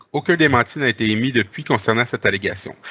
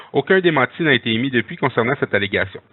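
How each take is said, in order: Both takes have the same delivery.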